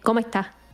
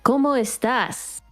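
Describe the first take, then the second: First: The final s sound is dropped. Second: The final s sound is clearly pronounced. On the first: "Cubans, they like cut off the ends of the words" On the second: "instead of saying like"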